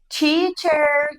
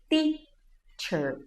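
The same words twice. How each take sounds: First: The first consonant sounds like a ch. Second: The first consonant is a plain hard t. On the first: The speaker calls it wrong. "quem nunca falou assim" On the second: The speaker calls it right. "encoste a sua língua atrás dos seus dentes"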